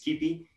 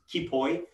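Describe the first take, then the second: First: The name is said with a Greek pronunciation. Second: The name is said with a non-Greek pronunciation. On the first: The speaker calls it right. "but in Greek it's Kipi" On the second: The speaker calls it wrong. "he mispronounced it"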